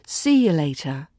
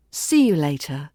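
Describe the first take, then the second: First: "See you later" with "you" reduced to "ya"; words run together. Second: Said in the usual way. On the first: Shown as a demonstration. Teacher shows learners connected speech, "See you later" with "you" said as "ya". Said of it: "Run the words and the syllables into each other". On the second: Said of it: "Run the words and the syllables".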